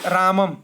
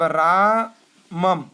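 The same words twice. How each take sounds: First: Said in the usual way. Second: रामम spoken very slowly, syllable by syllable; drawn-out word. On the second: Shown as a demonstration. Teacher slowly sounding out रामम for students. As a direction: spell out रामम slowly for the class. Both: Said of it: "अब रामम".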